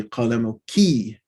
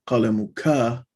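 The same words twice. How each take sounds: First: "قلمك" said qalamuki, ending in a clear "kee"; feminine ending KI. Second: "قلمك" said qalamuka, ending in an open "kah"; masculine ending KA. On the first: Teacher correcting the form for mother, "قلمك" as qalamuki. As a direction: end "قلمك" on a long "kee" sound. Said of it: "This is supposed to be". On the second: Teacher showing the form to avoid, "قلمك" as qalamuka. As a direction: end "قلمك" on "kah" rather than "kee". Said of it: "not قلمك". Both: Shown as a demonstration.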